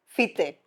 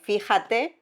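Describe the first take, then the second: First: The word is shortened to two syllables. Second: The word is said in full, three syllables. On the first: "This is the same thing" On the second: "it comes from the word fíjate"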